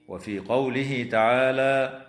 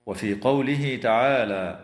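No difference in how they are said.

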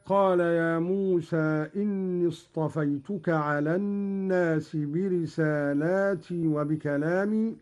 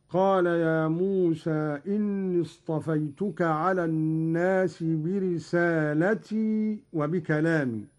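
First: Said in the usual way. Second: "برسالتي" said bi-risaalati, short a after the lam; singular form. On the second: Shown as a demonstration. Teacher demonstrating Qalun's reading, singular "برسالتي" with a short la. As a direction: recite "برسالتي" with no long a before the ti. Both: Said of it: "قرأ قالون بالإفراد".

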